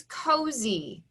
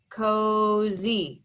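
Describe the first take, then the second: First: Said in the usual way. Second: "Cozy" stretched slowly into coh, zee; pounded syllables. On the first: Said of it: "The word is cozy". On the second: Shown as a demonstration. Teacher pounding out syllables for pupils, "Cozy" split slowly in two. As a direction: give "Cozy" two long, even beats. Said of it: "Two syllables".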